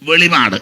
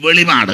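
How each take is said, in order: First: The middle p sound is short, single. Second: The middle p sound is short, single.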